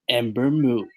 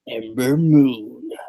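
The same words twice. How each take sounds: First: It is said in a normal speaking voice. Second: It is said in a dramatic movie-trailer voice.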